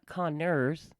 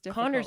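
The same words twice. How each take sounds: First: The name is broken into separate parts. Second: The name is said as one unbroken word. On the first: The speaker calls it wrong. "not Connors" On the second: The speaker calls it right. "is one word"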